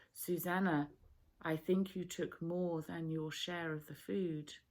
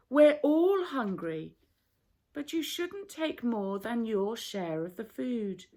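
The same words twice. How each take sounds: First: Soft, quiet gentle correction. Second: Harsh public scolding. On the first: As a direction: speak to her kindly, alone. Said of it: "Suppose you spoke very gently". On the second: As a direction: tell her off in front of everyone. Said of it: "not the way you did it just now". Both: A narrator's reading.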